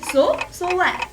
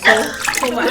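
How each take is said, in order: First: It is said in a higher-pitched voice. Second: It is said in a normal-pitched voice.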